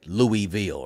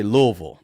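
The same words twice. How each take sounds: First: Louisville as LOO-ee-VILL, every syllable sounded; outsider's pronunciation. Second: Louisville as LUH-vul, two syllables; local pronunciation. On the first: Host shows what locals don't say, Louisville as LOO-ee-vill. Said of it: "They don't say Louisville". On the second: Host shows how residents say it, Louisville as LUH-vul. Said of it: "They say Louisville". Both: Shown as a demonstration.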